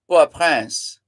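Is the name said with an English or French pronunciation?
French. The name is said with French pronunciation. "If you're going to pronounce it the French way"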